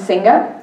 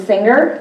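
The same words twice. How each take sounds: First: "singa" with an open "ah" ending, no r; "singa" as Nigerian English says singer; Nigerian pronunciation. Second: Said in the usual way. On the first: Shown as a demonstration. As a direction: drop the r, end "singa" on "ah". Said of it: "that becomes singa". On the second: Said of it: "different pronunciation in words such as".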